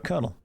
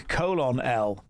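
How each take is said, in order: First: It is said as two syllables, kernel. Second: It is said as three syllables, colon-L. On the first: The speaker calls it right. "No, it's uh" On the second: The speaker calls it wrong. "You've been saying"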